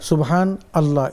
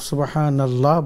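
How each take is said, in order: First: The two words are said apart with a break. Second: The n runs straight into the next word. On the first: The speaker calls it wrong. "এরকম পড়ার দরকার নেই" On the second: The speaker calls it right. "নুনের উপর জবর দিয়ে নুন গিয়া লামকে ধরবে"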